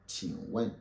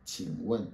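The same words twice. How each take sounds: The two takes are said the same way.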